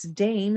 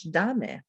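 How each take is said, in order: First: DAME as one syllable, "daym"; English pronunciation. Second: DAME in two syllables, "DAH-meh"; Spanish pronunciation. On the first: Teacher gives the English reading, English pronunciation. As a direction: say "dame" with silent e. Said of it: "In English". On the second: Teacher gives the Spanish reading, Spanish pronunciation. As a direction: say "dame" with both vowels sounded. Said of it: "In Spanish". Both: Shown as a demonstration.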